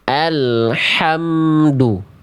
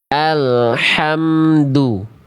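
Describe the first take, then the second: Both takes have the same delivery.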